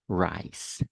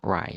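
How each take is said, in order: First: The word ends with a clear S sound. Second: The word ends without any S sound. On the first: The speaker calls it right. "It's rice. Rice" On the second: The speaker calls it wrong. "not rye"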